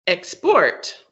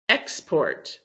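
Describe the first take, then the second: First: "export" as a verb, ex-PORT; stress on last syllable. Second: EX- stressed in "export", the noun; stress on first syllable. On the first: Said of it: "if the stress is on the last syllable". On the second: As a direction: say "export" with the weight on EX. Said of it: "have the stress on the first syllable". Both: Shown as a demonstration.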